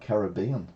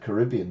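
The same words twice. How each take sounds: First: Caribbean is said with a non-American pronunciation. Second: Caribbean is said with an American pronunciation. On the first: "which is the correct pronunciation" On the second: "it's American, so I said Caribbean"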